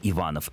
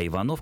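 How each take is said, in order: First: The stress is on the second syllable. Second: The stress is on the last syllable. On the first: It is a surname of the nobility. "вот это ударение на корни характеризует фамилии дворян. Поэтому Иванов — это дворянская фамилия" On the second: It is a common, non-noble surname. "это скорее фамилия не дворянская"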